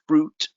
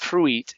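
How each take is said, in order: First: The letter I is silent. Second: The letter I is sounded. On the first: The speaker calls it right. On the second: The speaker calls it wrong.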